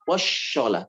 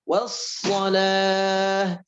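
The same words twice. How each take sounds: First: The consonant is an sh sound. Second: The consonant is a plain s sound. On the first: The speaker calls it wrong. "jangan wassalah" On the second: The speaker calls it right. "tapi patokannya S"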